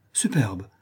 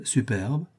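First: Superbe dropped low and settled; falling superbe. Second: Superbe lifted upward, savoured as a question; rising superbe. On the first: Count settling his verdict, superbe falling low. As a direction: bring superbe down, final and satisfied. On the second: Count relishing the reply, superbe rising. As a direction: let superbe rise, tasting the word. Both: A narrator's reading.

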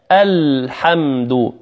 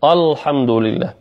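First: Slow الحمد with thin A, clear L; light hamza and lam. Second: الحمد opened with a thick, dark A; heavy hamza. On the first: Teacher modelling the correct light الحمد slowly. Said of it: "اللام والهمزة مرققتين". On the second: Teacher imitating a recitation error, heavy hamza in الحمد. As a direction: thicken the first vowel of الحمد. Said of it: "يفخم الهمزة". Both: Shown as a demonstration.

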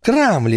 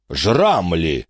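First: Крамли with a clear hard К, said primly; Крамли, not Жрамли; correct name. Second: Жрамли drawn out with a buzzing Ж; Жрамли with a long Ж instead of the hard К; drawn-out mispronounced name. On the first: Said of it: "Вы продадите это Жрамли!". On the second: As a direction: stretch out Жрамли, mocking the name. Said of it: "с растяжкой произнёс". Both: A narrator's reading.

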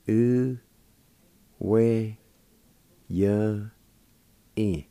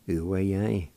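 First: U, we, ya, in, each held, long pauses between; syllable by syllable. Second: Said in the usual way. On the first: Shown as a demonstration. Teacher sounding out the word for meander, slow and broken up. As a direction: sound out U, we, ya, in one at a time. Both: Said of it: "It's pronounced like this".

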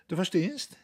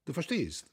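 First: "du verstehst?" said with a high rising tune, as a question. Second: "du verstehst" said with the tune falling, as a statement. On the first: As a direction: push "du verstehst?" up at the end, inviting an answer. („du verstehst?“ hoch und fragend ansteigend) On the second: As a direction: let "du verstehst" drop at the end, knowingly. („du verstehst“ mit fallender Melodie, wissend) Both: A narrator's reading. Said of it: "Und laut lachend".

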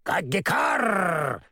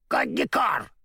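First: Slow, drawn-out crow cackle; mocking crow laugh; cackling crow caw. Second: High mocking crow cry; hammed-up crow caw. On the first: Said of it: "захохотала она". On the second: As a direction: caw it out with a sneer. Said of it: "насмешливо прокричала ворона". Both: A narrator's reading.

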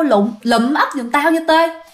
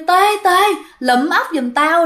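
First: Ghost calling out. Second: A ghost beckoning his friend by name; ghost calling out. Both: Acted. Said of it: "vẫy vẫy tay kêu".

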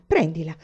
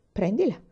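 First: "Prendila" repeated with scornful mimicry; mocking echo. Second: Terse, offhand "prendila"; laconic. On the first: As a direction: throw "Prendila" back at him in disdain. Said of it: "disse la moglie indignata". ("Prendila" ripetuto con scherno) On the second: Acted. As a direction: drop "prendila" as if nothing to it. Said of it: "rispose lui laconico". ("prendila" detto laconico)

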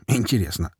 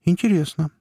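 First: Said in the usual way. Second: High intrigued remark. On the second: A narrator's reading. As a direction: sound genuinely surprised. Surprised reaction to news.

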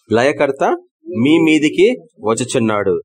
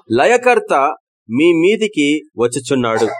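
First: Said in the usual way. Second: Proclaimed verse. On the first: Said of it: "అంతేనా?". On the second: Shown as a demonstration. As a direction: announce the destroyer's coming with force. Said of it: "reads the verse with force".

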